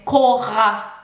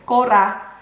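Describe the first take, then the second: First: The R is made in the throat, like gargling. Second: The R is made with the tongue.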